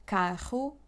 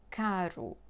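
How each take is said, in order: First: "Carro" with a throaty h-like R; strong R; double R. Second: "caro" with a light tapped R; soft tap R; single R. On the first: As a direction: breathe the RR in "Carro" as h. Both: Shown as a demonstration. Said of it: "one or two R's".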